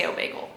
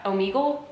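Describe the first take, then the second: First: "Omegle" with an ay sound, oh-MAY-gul; speaker's own pronunciation. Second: "Omegle" with a long ee, oh-MEE-gul; questioning "Omegle" as oh-MEE-gul; alternative pronunciation. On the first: Telling viewers their own way, "Omegle" said oh-MAY-gul. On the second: Correcting themselves on the website's name, "Omegle" said oh-MEE-gul. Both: Shown as a demonstration. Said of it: "I say Omegle".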